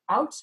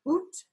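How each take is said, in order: First: The vowel is an 'ow' diphthong. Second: The vowel is a long 'oo' sound. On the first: This is the modern pronunciation. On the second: This is how it sounded in Chaucer's time.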